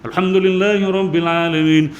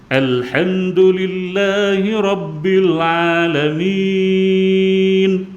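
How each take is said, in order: First: It is recited quickly with short vowels. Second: It is recited slowly with long-held vowels. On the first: It suits memorizing the Quran. "Al-Hadar ni bacaan agak laju" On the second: It suits teaching someone to recite. "kita baca dengan enam harakat, bacaan slow"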